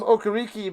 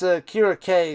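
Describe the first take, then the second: First: The name ends with a 'kee' sound. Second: The name ends with a 'kay' sound. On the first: This is how the name used to be said. The speaker calls it wrong. "I remember calling him Okariki back in the day" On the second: This is how the name is actually said. The speaker calls it right. "I think it's Akira K is how you pronounce that guy"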